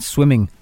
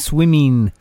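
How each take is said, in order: First: The ending is said with the full g sound. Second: The ending is said without the final g sound. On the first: The speaker calls it right. "rather than" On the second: The speaker calls it wrong. "People who can't pronounce ings"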